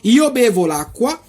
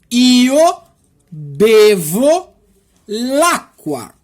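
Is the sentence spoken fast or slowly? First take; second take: fast; slowly. First: The sentence is spoken quickly. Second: The sentence is spoken slowly. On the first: "Agora eu vou falar rapidão as seis frases" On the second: "agora eu vou tentar de falar devagarzinho para você"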